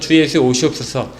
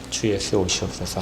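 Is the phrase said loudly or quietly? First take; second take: loudly; quietly. First: It is cried out loudly and passionately. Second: It is said softly in a low voice. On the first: The end is awaited with agitated frenzy. The speaker calls it wrong. "막 부르짖으면서 주 예수 오시옵소서 이렇게 하지 않아요" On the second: The end is awaited calmly while living daily life. The speaker calls it right. "조용히 아주 나지막히"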